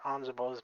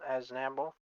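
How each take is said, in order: First: The name begins with the sounds 'anz'. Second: The name begins with the sounds 'azn'. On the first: This is the way first learned and kept out of habit. "I'll always say Anzabo in my heart" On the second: This is the official form of the name. "or Aznable"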